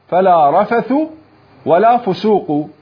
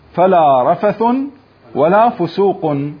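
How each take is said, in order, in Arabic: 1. تنتهي الأسماء بـ -a من غير تنوين. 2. تنتهي الأسماء بـ -un مع التنوين. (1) "وقرأ الباقون بالفتح من غير تنوين" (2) "قرأ ابن كثير وأبو عمرو ابن العلاء"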